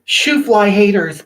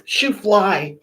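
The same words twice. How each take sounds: First: Slow, louder "Shoo fly haters"; drawn-out, punchy "Shoo fly haters"; sassy dismissal. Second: Said in the usual way. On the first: Real, not acted. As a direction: wave the haters off with sass. Brushing off an insulting commenter.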